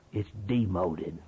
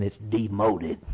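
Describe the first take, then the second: First: "It's demoted" said softer and slower, sinking low; quiet slow repeat. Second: Said in the usual way. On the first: Shown as a demonstration. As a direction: let "It's demoted" fall away quietly.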